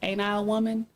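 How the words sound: It is said gently, with a soft voice. "You can put a little softness to it"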